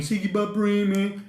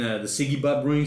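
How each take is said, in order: First: Siggy Butt Bream said higher in a broad Aussie cartoon accent; Siggy Butt Bream pitched up in a mock broad Aussie accent. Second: Said in the usual way. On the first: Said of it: "in Aussie". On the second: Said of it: "if you ever seen".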